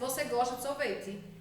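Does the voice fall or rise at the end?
fall. It is said as a statement, falling.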